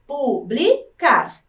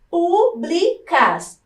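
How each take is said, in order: First: Públicas said slowly once more as pú-bli-cas; syllable by syllable again. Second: Públicas split slowly as pú-bli-cas; syllable by syllable. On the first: Teacher to pupils, repeating públicas slowly by syllables. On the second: Teacher to pupils, sounding out Públicas slowly. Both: Shown as a demonstration. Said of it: "três sílabas".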